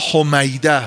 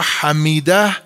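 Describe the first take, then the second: First: The name is said with the vowels o and ay. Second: The name is said with the vowels a and i. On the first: "به صورت فعیل" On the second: "وزن فعیل"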